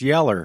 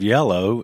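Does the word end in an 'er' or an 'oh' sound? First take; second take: er; oh. First: The word ends in an 'er' sound. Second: The word ends in an 'oh' sound. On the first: "it's yeller" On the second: "Instead of yellow"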